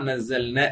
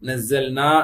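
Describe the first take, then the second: First: The final vowel is cut short. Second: The final vowel is held long. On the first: The speaker calls it wrong. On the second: The speaker calls it right.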